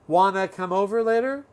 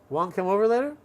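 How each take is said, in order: First: Want to blends into one short word. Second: The opening is squeezed down to almost nothing. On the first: "A little shorter"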